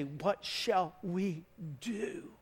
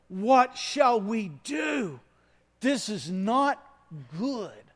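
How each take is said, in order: First: Slow, pleading question; slow troubled plea; anguished cry. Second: Slow, louder anguished outcry; high, loud, slow dismay; desperate cry. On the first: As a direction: voice the crowd's dismay, drawn out. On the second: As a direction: cry out in alarm, drawn out. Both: Acted. Crowd's anguished question acted out.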